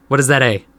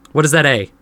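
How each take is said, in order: Both takes have the same delivery.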